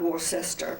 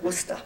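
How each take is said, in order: First: Worcester is pronounced in a non-local way. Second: Worcester is pronounced the local way. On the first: The speaker calls it wrong. "Not Worcester" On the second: The speaker calls it right. "that's the way they pronounce it there"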